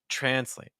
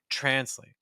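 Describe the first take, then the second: The two takes are said the same way.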